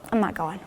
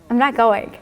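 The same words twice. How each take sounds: First: Soft, low-energy refusal; weary refusal. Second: Playful refusal breaking into a laugh; smiling refusal. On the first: Patient refusing her morning chemo session, weary refusal. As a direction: say it quietly, as if giving up. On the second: Patient smiling at the hummingbird at her window, playful refusal. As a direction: refuse with a smile, about to laugh. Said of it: "I started smiling". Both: Retold or imitated.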